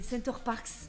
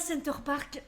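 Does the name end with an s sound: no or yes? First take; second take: yes; no. First: The name ends with an s sound. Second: The name ends without an s sound. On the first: The speaker calls it right. "il y a un S quand même à la fin de Parks" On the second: The speaker calls it wrong. "c'est pas Center Park"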